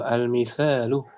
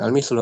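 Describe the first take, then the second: First: The middle vowel is kept, giving 'misalu'. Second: The middle vowel is dropped, giving 'mislu'. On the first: The speaker calls it right. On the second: The speaker calls it wrong. "bukan al-mislu"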